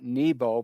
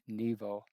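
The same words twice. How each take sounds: First: The middle consonant is a B sound. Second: The middle consonant is a V sound. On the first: "with the English and the Christians, it's Mount Nebo" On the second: This is the Hebrew form. "they pronounce it in Hebrew with a V"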